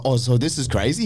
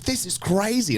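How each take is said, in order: First: A rising, unsure check that "crazy" is normal; unsure question. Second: Much higher, falling "This is crazy." as firm agreement; excited confirmation. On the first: Ask "so this is crazy?" with a questioning lift on "crazy". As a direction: newcomer on set asking the other actor, unsure rising tone. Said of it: "And I was like". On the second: Say "This is crazy." high and falling, as a statement. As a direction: veteran actor confirming the set is wild, high excited tone. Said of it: "He's like". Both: Retold or imitated.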